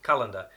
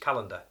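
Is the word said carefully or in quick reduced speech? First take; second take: quick; quick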